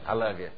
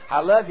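First: It is said flatly, with no feeling. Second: It is said eagerly, with warm feeling. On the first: The speaker says it only because asked to. The speaker calls it wrong. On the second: The speaker is newly in love and means it. The speaker calls it right.

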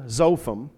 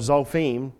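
First: The name is pronounced the English way. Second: The name is pronounced the Hebrew way.

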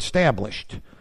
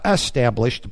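First: The word starts directly with the 's' sound. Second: The word starts with a vowel before the 's'. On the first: Something already begun is stabilized. "but established" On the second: Something is begun. "not established"

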